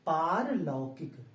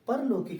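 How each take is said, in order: First: The first vowel is long. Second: The first vowel is short. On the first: The speaker calls it right. "ये होता है पारलौकिक" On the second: The speaker calls it wrong. "परलौकिक नहीं दोस्तों"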